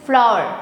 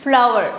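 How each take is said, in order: The two takes are said the same way.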